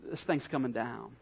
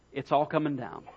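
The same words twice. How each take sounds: First: Low, soft, heavy-hearted thought; subdued emotion. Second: Plainly stated prediction; matter-of-fact. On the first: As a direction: say it quietly, as if with a lump in the throat. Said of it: "looked at it with emotion and thought". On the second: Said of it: "Jesus really sounds matter of fact". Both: Retold or imitated.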